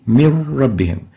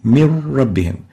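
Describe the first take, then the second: First: The n disappears into a doubled r sound. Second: The n disappears into a doubled r sound.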